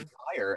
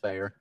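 First: The name sounds exactly like the word fire. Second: The name does not sound like the word fire. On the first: The speaker calls it wrong. "A lot of people say fire" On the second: The speaker calls it right. "But it's not. It's Feyer"

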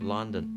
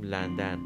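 First: It is said the English way, like 'Lundun'. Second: It is said the Persian way, with 'a' vowels. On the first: This is how English speakers say it. The speaker calls it right. "آنچه آنان میگوین لندن" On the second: This is how Persian speakers say it. The speaker calls it wrong. "آنچه ما میگوییم لندن"

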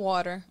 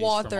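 First: It is said in an American accent. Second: It is said in a British accent.

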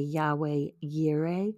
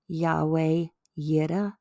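First: It is said with an American pronunciation. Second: It is said with a Hebrew-style pronunciation.

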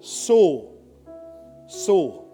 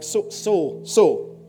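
First: It is said firmly, with commanding authority. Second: It is said hesitantly, with a stutter.

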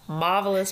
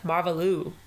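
First: The name is pronounced in an English style. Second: The name is pronounced in a French style.

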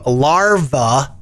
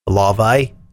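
First: It is said in the speaker's plain accent. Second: It is said in an Australian accent.

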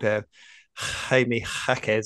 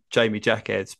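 First: The surname is pronounced with Spanish sounds. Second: The surname is pronounced with English sounds. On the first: This is how it is said in the player's own country. The speaker calls it right. "I heard him called Jamie Jacquez on there" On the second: This is how British people usually say it. The speaker calls it wrong. "us Brits call him Jamie Jacquez"

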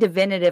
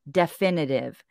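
First: The word is said with a V sound. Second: The word is said with an F sound. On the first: The speaker calls it wrong. "I keep saying divinative, like it's a V" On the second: The speaker calls it right. "It's an F"

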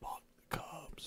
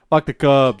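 First: It is said at a normal volume. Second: It is said louder and with more force.

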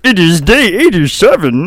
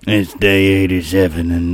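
First: It is said in a put-on Marvin voice. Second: It is said in a put-on Sling Blade voice. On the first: "Can you do the voice of Marvin the Martian?" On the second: "You can do Sling Blade?"

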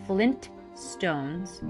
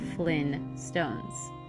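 First: The T before stones is clearly pronounced. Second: The T is dropped, going straight to stones. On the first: "Do you remember that hard T" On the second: "just going straight to Stones"

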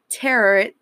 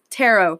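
First: It ends with an 'ut' sound, like carrot. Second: It ends with an 'oh' sound, like sparrow. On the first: The speaker calls it wrong. "not tarot, like you pronounce carrot" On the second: The speaker calls it right. "it's pronounced tarot"

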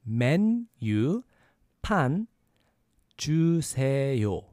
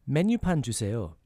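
First: It is said at a slower pace. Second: It is said at a faster pace.

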